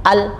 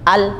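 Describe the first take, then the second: No difference in how they are said.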